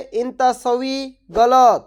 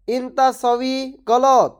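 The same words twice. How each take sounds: First: Said in the usual way. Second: ইনতা সউই গলত slow, each word clear; slow repeat. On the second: Shown as a demonstration. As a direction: spell out ইনতা সউই গলত slowly for learners. (ধীরে ধীরে স্পষ্ট করে বলা) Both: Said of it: "এর আরবি হবে".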